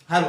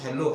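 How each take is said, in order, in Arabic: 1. تُنطق التحية بنطق ألماني. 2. تُنطق التحية بنطق إنجليزي. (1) "هلو الماني" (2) "مش"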